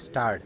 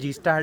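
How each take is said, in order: First: It begins directly with an s sound. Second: It begins with the letter name gee. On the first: The speaker calls it right. "ये है स्टार्ट" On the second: The speaker calls it wrong. "हम सब गलत बोलते हैं"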